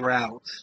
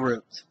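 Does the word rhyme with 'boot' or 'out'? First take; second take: out; boot. First: The vowel sounds like in 'out'. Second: The vowel sounds like in 'boot'. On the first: Other people say it this way. "some people do say route" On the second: This is the speaker's own way. "but I say root"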